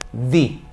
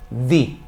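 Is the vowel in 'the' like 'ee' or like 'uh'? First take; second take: ee; ee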